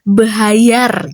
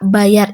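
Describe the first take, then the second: First: An extra h sound is inserted after the first consonant. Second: It is said plainly with no added h sound. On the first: A speaker with a speech disorder says it. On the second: The standard pronunciation.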